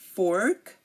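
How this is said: The R after the vowel is pronounced. "in American English, what I speak, we say fork"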